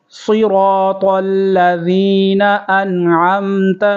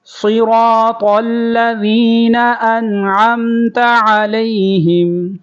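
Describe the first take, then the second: First: Said in the usual way. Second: Higher, melodic tajweed chant; chanted tilawat, higher; Quran recitation. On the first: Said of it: "عین کی آواز نکالیں گے،". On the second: Shown as a demonstration. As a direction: recite it sung for students to copy. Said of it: "اب میرے ساتھ دہرائیں گے،".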